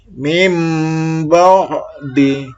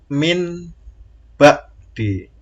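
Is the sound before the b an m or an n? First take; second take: m; n. First: The first word ends in an m sound. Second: The first word ends in an n sound. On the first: "itu nurum suaranya berubah mim" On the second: "Ini asalnya bacanya kan min ba di"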